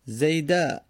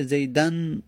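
First: "زیده" ending in an open short a; without tanwin. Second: "زیدن" ending in -an; fatha tanwin. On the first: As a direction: say "زیده" as zayda, with no final n. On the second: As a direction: say "زیدن" as zaydan, sounding the final n. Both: Shown as a demonstration.

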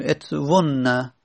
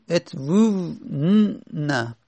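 First: "ات وون نه" joined up, short u into a doubled n; long vav dropped. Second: "ات وو ن- نه" with a long held "وو", then a separate n; two quiescents clashing. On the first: Teacher gives the form after deletion, "ات وون نه" joined with short u. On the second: Teacher shows students the clash of quiescents, "ات وو ن- نه" drawn out in pieces. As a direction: draw out "وو ن-" very slowly before "نه". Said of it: "التقا ساکنن میشه دیگه". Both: Shown as a demonstration.

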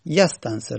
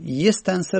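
First: یستنصر begun with "yas-", an a vowel; یستنصر with an open "a" after the opening y; no kasra on ya. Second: یستنصر begun with "yes-", an e vowel; یستنصر with a short "e" after the opening y; kasra on the ya. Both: Shown as a demonstration.

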